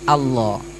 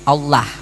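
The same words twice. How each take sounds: First: The L sound is heavy and thick. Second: The L sound is light and thin. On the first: The speaker calls it right. "tapi Allah" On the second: The speaker calls it wrong. "bukan Allah ya"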